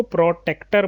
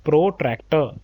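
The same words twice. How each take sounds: First: प्रोटेक्टर said without the r after t, pro-tek-tar; the common mistaken प्रोटेक्टर, no r in the second syllable; wrong pronunciation. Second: प्रोट्रैक्टर with a clear tr, pro-trai-ktar; correct pronunciation. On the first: Teacher to students, showing the wrong प्रोटेक्टर without the r. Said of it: "प्रोटेक्टर नहीं होता बेटा ये". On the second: Teacher correcting students, saying प्रोट्रैक्टर with the tr sound. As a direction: stress the ट्रैक्टर inside प्रोट्रैक्टर. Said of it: "यहाँ पर देखिए ट्रैक्टर है ये". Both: Shown as a demonstration.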